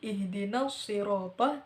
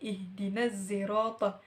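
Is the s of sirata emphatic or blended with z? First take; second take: emphatic; z-blended. First: The sound is a pure emphatic s. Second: The sound is an emphatic s blended with z. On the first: "bukan lagi" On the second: "suara gabungan dari huruf shad dan juga huruf za"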